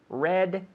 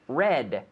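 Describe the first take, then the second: First: The word ends in a clear, strong D. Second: The word ends in a clear, strong D.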